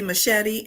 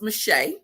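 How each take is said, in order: First: The surname sounds like the blade machete. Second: The surname does not sound like machete. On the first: The speaker calls it wrong. "most people say Shelly Machete" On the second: The speaker calls it right. "but it's mache"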